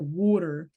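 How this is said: The word is said with a Philadelphia accent. "in Philly, like or like in that state specifically, Pennsylvania"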